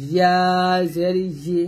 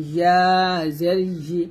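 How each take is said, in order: Both takes have the same delivery.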